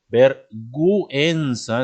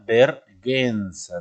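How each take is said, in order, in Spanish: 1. La u se pronuncia después de la g. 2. La u es muda después de la g. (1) "entonces la U se pronuncia" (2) "Pero si no le pongo la U, diría vergüenza"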